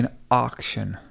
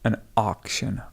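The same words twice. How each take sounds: First: The first vowel sounds like 'ar'. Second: The same.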